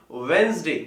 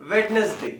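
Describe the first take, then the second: First: वेंसडे as WENZ-day, first d silent; correct pronunciation. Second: वेडनेसडे sounding the first d; three parts in वेडनेसडे, "wed-nes-day"; common mispronunciation. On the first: Teacher correcting students, वेंसडे without the first d. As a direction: squeeze वेंसडे into two syllables. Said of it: "it should be". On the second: Teacher imitating students' error, वेडनेसडे with every syllable. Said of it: "ये वेडनेसडे नहीं होता". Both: Shown as a demonstration.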